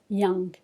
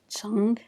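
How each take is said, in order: First: The word begins with a y sound. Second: The word begins with a ch sound. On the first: The speaker calls it right. "this one pronounced like a ya" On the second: The speaker calls it wrong. "it's not chang"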